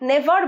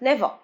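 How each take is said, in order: First: The word ends with a clear r sound. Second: The word ends without any r sound. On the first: The speaker calls it wrong. "never বলছি না" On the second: The speaker calls it right. "র হয় না বলেছি শেষে"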